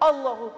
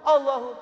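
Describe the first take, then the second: No difference in how they are said.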